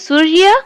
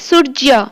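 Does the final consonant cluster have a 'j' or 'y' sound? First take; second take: y; j. First: The cluster after 'r' has a 'y' sound. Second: The cluster after 'r' has a 'j' sound. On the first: This is the Hindi pronunciation. "सूर्य को हिंदी रे कौन कहते?" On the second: This is the Odia pronunciation. "आ ओडिया रे सूर्य"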